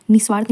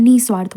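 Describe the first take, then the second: First: निस्वार्थ with a short i straight into s; wrong form shown. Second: निस्वार्थ with a held, breathed first syllable, nih-svaarth; correct pronunciation. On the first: Teacher citing the mistake, निस्वार्थ with short first syllable. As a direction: say निस्वार्थ as nis-vaarth. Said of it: "निस्वार्थ नहीं होता". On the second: Teacher giving the correct form, निस्वार्थ as nih-svaarth. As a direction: sound the visarga in निस्वार्थ before the s. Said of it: "निस्वार्थ होता है". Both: Shown as a demonstration.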